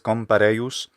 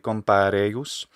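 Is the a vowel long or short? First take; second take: short; long. First: The a vowel is short. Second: The a vowel is long. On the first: The speaker calls it wrong. "He says compareius" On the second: The speaker calls it right. "this a is long, so it should be compareius"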